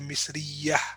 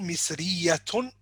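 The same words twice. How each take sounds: First: The word ends with a soft h sound. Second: The word ends with a full t-and-vowel ending. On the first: "if you don't want to pronounce the ending, you say" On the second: "if you want to pronounce the ending"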